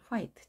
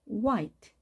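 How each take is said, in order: First: The word begins with an h sound. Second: The word begins with a w sound. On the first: The speaker calls it wrong. "예전에 우리가 학창 시절에는 이것을 화이트 이렇게 배웠습니다" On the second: The speaker calls it right.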